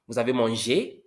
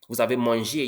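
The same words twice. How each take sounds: First: The voice rises at the end. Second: The voice falls at the end. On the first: It asks a question. "Did you eat?" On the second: It states a fact. "You ate"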